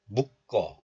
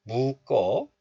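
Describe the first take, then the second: First: 묶어 as short muk, then kkeo; closed first syllable. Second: 묶어 as open mu plus tense kkeo; linked pronunciation. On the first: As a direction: stop 묶어 on k before kkeo. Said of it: "pronounce this letter like 묵". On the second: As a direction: leave the first syllable of 묶어 open, mu-kkeo. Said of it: "both are fine". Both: Shown as a demonstration.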